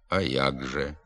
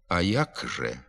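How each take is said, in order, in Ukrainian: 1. Приголосний у слові 'як' — дзвінкий [г]. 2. Приголосний у слові 'як' — глухий [к]. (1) "замість глухого «к» вимовляється дзвінкий «г»" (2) "Пишемо «а як же»"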